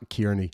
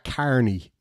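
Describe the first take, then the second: First: The first syllable sounds like 'keer'. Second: The first syllable sounds like 'car'. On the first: This is not how the Irish say the name. The speaker calls it wrong. "not Kearney" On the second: This is how the Irish say the name. The speaker calls it right. "as an Irishman, um, we pronounce that Carney"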